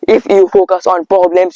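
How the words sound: It is spoken in an Indian accent. The speaker calls it wrong. "It is the proper Indian accent"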